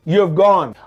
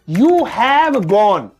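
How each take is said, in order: First: The word have is shortened and joined. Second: The word have is said in full.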